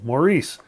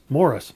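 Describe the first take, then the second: First: The stress is on the second syllable. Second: The stress is on the first syllable. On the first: This is the American, French-like pronunciation. The speaker calls it wrong. "with the accent on the second syllable" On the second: This is the Canadian and English pronunciation. The speaker calls it right. "that's how you pronounce it. Same as you'd pronounce M O R R I S"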